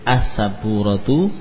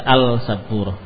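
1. L dihilangkan dan menyatu dengan S. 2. Bunyi L pada artikel jelas diucapkan. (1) "Lamnya memang enggak dibaca otomatis" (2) "Kurang pas kalau kita baca al-sabur, ganjil di lidah"

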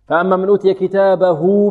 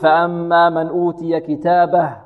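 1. تنتهي آخر كلمة بصوت 'u' ممدود. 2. تنتهي آخر كلمة بصوت 'h' دون مد. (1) "لماذا وصلناها بواو لفظية؟" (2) "وإذا وقفنا نقول"

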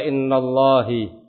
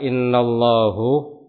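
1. Kata ini berakhir dengan vokal i. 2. Kata ini berakhir dengan vokal u. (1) "Atau ada yang membaca innallahi" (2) "Terasa di telinga ada sesuatu ganjalan"

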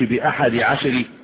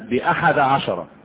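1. الجزءان ينتهيان بحركات إعراب، لا بفتحة. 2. الجزءان من العدد ينتهيان بالفتحة. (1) "ما تقولش بأحد عشر" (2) "مبنية على فتح الجزئين"

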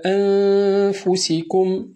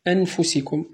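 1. النون مخفاة بصوت أغن. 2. النون مبينة بوضوح كامل.

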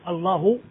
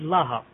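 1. Le mot se termine par la voyelle u. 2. Le mot se termine par la voyelle a. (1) "au lieu de dire Allahu" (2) "je dis Laha"

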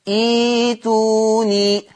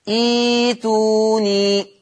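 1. تحل ياء المد محل الهمزة. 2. تحل ياء المد محل الهمزة.

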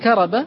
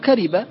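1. الحركة بعد الراء هي 'a'. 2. الحركة بعد الراء هي 'i'. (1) "يجوز فتح الراء" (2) "وكسرها"

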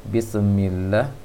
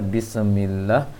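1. Bunyi s dilepas terlalu cepat sehingga memantul. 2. Bunyi s dilepas terlalu cepat sehingga memantul.

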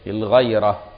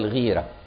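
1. الحركة بعد gh هي صوت a. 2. الحركة بعد gh هي صوت i.

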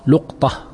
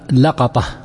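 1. الحركة الأولى u، ولا توجد حركة بعد القاف. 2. الحركة الأولى a، والمقطع الثاني فيه الحركة a. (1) "بسكون القاف لقطة" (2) "وتأتي بفتحهما لقطة"

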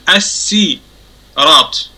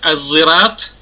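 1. Слово произносится с обычным, лёгким звуком s. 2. Слово произносится со звуком z. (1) "через букву син" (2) "через букву зай или зин"

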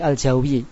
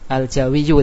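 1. Kata ini berakhir di -i, akhirannya dihilangkan. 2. Kata ini berakhir dengan akhiran -yyu penuh. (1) "dibaca wakop menjadi al-Jawi" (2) "kasih al-Jawiyu"

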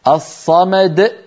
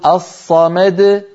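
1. تُقطع الدال الأخيرة بانقفال حنجري. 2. تُنطق الدال الأخيرة بانفراج قصير وارتداد خفيف. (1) "الصمد أيضا لا يصح" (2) "لابد أن نقول الصمد د فقط"

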